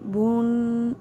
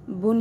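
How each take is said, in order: First: The vowel is drawn out long. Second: The vowel is kept short. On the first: The speaker calls it wrong. "इतना ज़्यादा खींचा ना जाए, और जैसे बून ऐसे" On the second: The speaker calls it right. "बल्कि बुन ही पढ़ा जाए"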